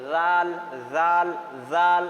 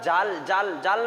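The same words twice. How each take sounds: First: জাল with a light th-like first sound, lower pitched. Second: জাল like the everyday word for fishing net; ordinary hard j. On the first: Teacher drills students, জাল lightly articulated. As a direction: give জাল a light start and held vowel. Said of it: "হালকা করে আমরা". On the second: Teacher shows the mistake that means fishing net, জাল with hard j. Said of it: "না বলে দিই". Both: Shown as a demonstration.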